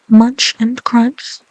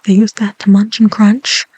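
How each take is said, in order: First: Munch and crunch drawn out slowly. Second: Said in the usual way. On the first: Shown as a demonstration. Relishing the duck's eating, slow. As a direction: savour each word.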